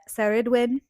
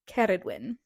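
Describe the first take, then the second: First: The name begins with an S sound. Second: The name begins with a K sound. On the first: The speaker calls it wrong. "Did I say those correctly?" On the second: The speaker calls it right. "it's Ka"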